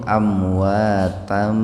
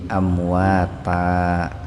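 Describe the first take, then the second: First: The word ends in an m sound. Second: The word ends in a lengthened open vowel. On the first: The reading continues into the next word. "kalau mau bersambung diwasolkan itu" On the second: The reading stops at this word. "Kalau mau berhenti di situ"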